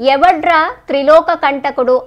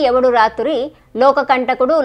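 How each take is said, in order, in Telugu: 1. పదాలు evadraa, తర్వాత triloka గా విడిపోతాయి. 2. పదాలు evadu raaturi, తర్వాత loka గా విడిపోతాయి. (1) "అలా కాదురా" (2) "పదే పదే పలుకుతారు కదా"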